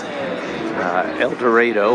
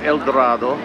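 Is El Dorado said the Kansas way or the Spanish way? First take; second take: Kansas; Spanish. First: It is said with a local Kansas pronunciation. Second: It is said with a Spanish-style pronunciation.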